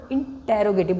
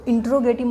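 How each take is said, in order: First: इंटेरोगेटिव with a full "te" syllable, "in-te-ro"; corrected pronunciation इंटेरोगेटिव. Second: इंट्रोगेटिव with the middle squeezed to "in-tro"; mispronounced इंट्रोगेटिव. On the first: Teacher correcting students' word for a question sentence, pronounced "in-te-ro-gative". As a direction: say इंटेरोगेटिव as in-te-ro-ge-tiv. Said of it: "इंटेरोगेटिव बोलते हैं". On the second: Teacher showing students what not to say, mispronounced "in-tro-gative". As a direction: say इंट्रोगेटिव with "tro", dropping the "te" syllable. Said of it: "इसको इंट्रोगेटिव मत बोलो".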